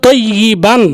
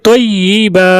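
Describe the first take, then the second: First: The word ends with an n sound. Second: The word ends with a long a vowel. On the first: The word is read in connected speech without stopping. "মূলত ছিল তৈয়িবান" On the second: The reader stops at this word. "এখানে থামার কারণে পড়তে হবে তৈয়িবা"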